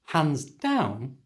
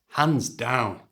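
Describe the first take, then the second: First: The pitch rises at the end. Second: The pitch falls at the end.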